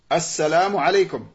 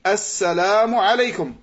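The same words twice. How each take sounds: First: It starts with a glottal stop and 'a'. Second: The same.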